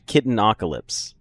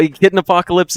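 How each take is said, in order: First: "Kitten Apocalypse" blended as "Kitten-OCK-alypse", no "p" after Kitten; corrected name. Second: "Kitten Apocalypse" with a full "uh-POC-alypse" after Kitten; mispronounced name. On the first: Shown as a demonstration. Streamer apologises and corrects the username, "Kitten Apocalypse" said "Kittenocalypse". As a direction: drop the "uh-p" from "Kitten Apocalypse": "Kitten-ockalypse". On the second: Real, not acted. Streamer misreads a username, "Kitten Apocalypse" with the extra "p" sound. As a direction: say "Kitten Apocalypse" as two whole words, keeping the "p".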